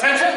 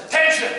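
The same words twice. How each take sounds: First: Raised, questioning cadet voice; clueless question. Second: Loud, high-pitched call to attention; drill command. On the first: Clueless cadet answering the drill instructor, puzzled query. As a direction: ask it as if you have no idea. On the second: Drill instructor to cadets out on deck, barked command. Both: Retold or imitated.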